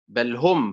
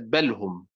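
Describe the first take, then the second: First: Each of the two words carries its own stress. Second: The two words share one stress like one word. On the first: The speaker calls it right. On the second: The speaker calls it wrong.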